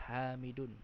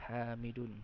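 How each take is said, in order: No difference in how they are said.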